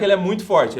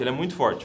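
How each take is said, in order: First: "muito forte" pushed out with emphasis; firm emphasis on "forte"; emphatic. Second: Said in the usual way. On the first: Real, not acted. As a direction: insist on "ele é muito forte". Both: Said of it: "o sotaque, ele é muito forte".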